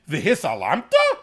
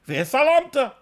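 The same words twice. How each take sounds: First: It is said with a questioning tune. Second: It is said with a flat statement tune. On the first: You would really look away? "is really in there as a question" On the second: You may look away. "you just change the inflection of your voice"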